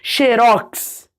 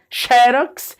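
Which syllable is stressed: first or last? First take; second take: last; first. First: The stress is on the last syllable. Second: The stress is on the first syllable. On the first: "ou faz uma oxítona mesmo" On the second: "a tônica no xe"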